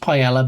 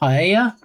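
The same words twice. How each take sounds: First: The double L is said as an L sound. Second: The double L is said as a Y sound. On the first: The speaker calls it wrong. "not being pronounced paella" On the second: The speaker calls it right. "pronounce the two L's as a Y"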